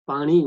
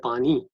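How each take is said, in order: First: The n sound is soft. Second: The n sound is hard. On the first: This is how it is said in Gujarati. "pani with a with a soft na" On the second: This is how it is said in Hindi. "in Hindi we say pani"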